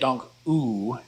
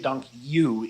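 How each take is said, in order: First: The final vowel sounds like English 'oo'. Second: The final vowel sounds like English 'you'. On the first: "The u here is not like the double O in English. You don't want to say dank u" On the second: "you don't want to say dank you either"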